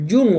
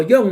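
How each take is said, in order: First: Jung said as "yung", with a u sound; tentative pronunciation. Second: Jung said as "yong", with an o sound; second guess at "Jung", vowel opened to o; alternative pronunciation. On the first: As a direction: try "Jung" with an oo vowel. (pronunciación de Jung como "yung", con u) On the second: (pronunciación de Jung como "yong", con o) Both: Shown as a demonstration. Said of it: "no sé cómo se pronuncian".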